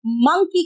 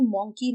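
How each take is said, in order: First: मंकी as "MUNG-kee"; मंकी rhyming with "chunky"; correct pronunciation of मंकी. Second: मंकी as "MONG-kee"; मंकी with an aw vowel, softer; wrong pronunciation of मंकी. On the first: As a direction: say मंकी with a short uh vowel. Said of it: "मंकी कहते हैं". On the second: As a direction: say मंकी with a round o, like donkey. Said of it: "मंकी नहीं कहते". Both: Shown as a demonstration.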